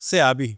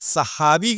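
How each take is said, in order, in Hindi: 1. बीच का व्यंजन y की ध्वनि है। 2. बीच का व्यंजन h की ध्वनि है। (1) "सहाबी की जगह सयाबी" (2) "लफ्ज़ सहाबा बोलना नहीं आता"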